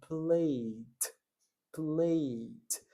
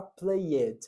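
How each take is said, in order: First: Played with the sound stopped short; cut-off ending. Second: Played with a full ed syllable; wrong full ending. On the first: Teacher models played with the ending cut short. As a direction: say played as one syllable, plade. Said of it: "eu vou interromper o som". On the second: Teacher shows the pronunciation to avoid, played spelled out. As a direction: say played as play-ed. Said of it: "eu não vou falar played". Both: Shown as a demonstration.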